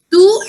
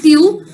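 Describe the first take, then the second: First: Tu as a clear, loud "too"; no y sound after the t in tu; tu without glide. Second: Tu as a clear "tyoo"; tu with y-glide. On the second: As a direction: slip a y in after the t in tu. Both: Shown as a demonstration. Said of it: "both of them are accepted pronunciations".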